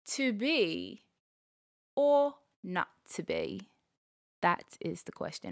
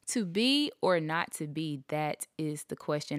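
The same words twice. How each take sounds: First: It is said in a British accent. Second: It is said in an American accent.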